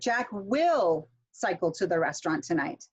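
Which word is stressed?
will. The stress is on will.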